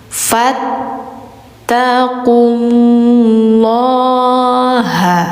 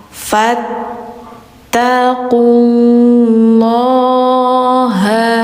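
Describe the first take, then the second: No difference in how they are said.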